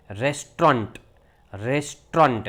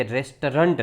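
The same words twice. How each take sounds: First: રેસ્ટોરન્ટ as "RES-tront", two syllables; British pronunciation. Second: રેસ્ટોરન્ટ as "RES-tuh-runt"; American pronunciation. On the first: Teacher correcting learners, British pronunciation. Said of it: "એનો ઉચ્ચાર થાય". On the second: Teacher showing the American form, American pronunciation. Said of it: "અમેરિકાની અંદર એનો ઉચ્ચાર". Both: Shown as a demonstration.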